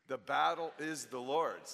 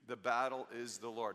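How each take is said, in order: First: It is said loudly with strong energy. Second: It is said at a calm, ordinary volume. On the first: "Let's say it with some oomph" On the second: "Would you say that with me?"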